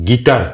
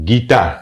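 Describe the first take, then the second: Both takes have the same delivery.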